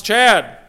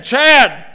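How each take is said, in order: First: Raised, louder single name call; parent calling child. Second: Much higher, louder name call with a falling end; emphatic mom call. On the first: Parent calls their child the first time, raised voice. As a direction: call a child's name firmly, pitch falling. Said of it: "call their name once". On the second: Mom calls her child a second time, emphatic shout. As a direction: call out sharply, child is in trouble. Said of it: "your mom calls it again". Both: Acted.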